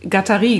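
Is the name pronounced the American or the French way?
French. The name is said with a French pronunciation. "Aber er ist Franzose"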